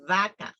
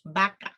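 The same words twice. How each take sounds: First: "vaca" with a long buzzing V; labiodental V. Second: "vaca" with V turned to B; Latin American B-sound. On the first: Teacher models correct pronunciation, "vaca" with a buzzed V. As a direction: hold the V of "vaca", teeth on lip. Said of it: "That is how you need to pronounce". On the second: Teacher repeats Latin American usage, "vaca" said as baka. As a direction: close both lips to start "vaca", like baka. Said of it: "But in Latin America, they say". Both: Shown as a demonstration.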